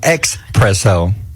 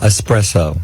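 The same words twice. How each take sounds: First: The word begins with an 'ex' sound. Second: The word begins with an 'es' sound. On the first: The speaker calls it wrong. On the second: The speaker calls it right.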